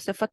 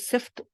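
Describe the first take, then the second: First: A short vowel is heard between f and t. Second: No vowel is heard between f and t. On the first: The speaker calls it right. "इसको सिफत बोलना है" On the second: The speaker calls it wrong. "सिफ्त सब लोग कह रहे हैं"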